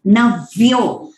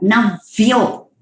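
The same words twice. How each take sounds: First: नव्यो with a distinct half v, then yo; नव्यो, slow, half v heard clearly before yo. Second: नव्यो blurred, va and yo run into one; नव्यो without the half v; wrong navyo. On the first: Teacher showing the correct नव्यो for students. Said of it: "half व और यो है". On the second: Teacher imitating a slurred नव्यो. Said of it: "नव्यो नहीं". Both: Shown as a demonstration.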